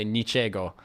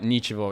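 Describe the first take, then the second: First: Niczego with a hard g; Polish pronunciation. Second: Nichevo with the g softened to a v; Russian pronunciation. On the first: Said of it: "Polish say". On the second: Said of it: "the Russian word". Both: Shown as a demonstration.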